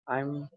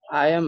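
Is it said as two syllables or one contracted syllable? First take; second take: one syllable; two syllables. First: It is said as one short contracted syllable. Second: It is said as two full separate syllables.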